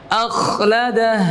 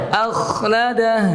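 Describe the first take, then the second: The two takes are said the same way.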